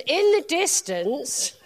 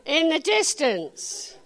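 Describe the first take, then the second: First: "in the distance" drawn out slowly; slow stress on distance. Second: "In the distance" said slowly, stressing "In"; slow down and hit "In the distance"; slow repeated emphasis. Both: Shown as a demonstration.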